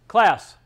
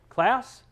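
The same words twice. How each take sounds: First: The voice is flat and drops at the end. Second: The voice rises at the end like a question.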